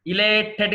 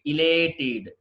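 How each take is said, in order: First: ఇలేటెడ్ ending in a hard "tet"; wrong pronunciation. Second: ఇలేటెడ్ ending in "tid"; correct pronunciation. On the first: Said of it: "కాదండి". (ఇలేటెడ్ చివర "టెట్" అని తప్పుగా) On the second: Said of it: "మనం ఇడ్ అనాలి". (ఇలేటెడ్ చివర "టిడ్" అని) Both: Shown as a demonstration.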